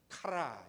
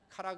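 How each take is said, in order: First: The word begins with a breathy h-like sound. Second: The word begins with a hard k sound. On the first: The speaker calls it right. "카라 이렇게 얘기해요. 헬라어에는 X가 하 발음이 나오는 거예요" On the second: The speaker calls it wrong. "카라 그러면 안 되고요. 못 알아들어요"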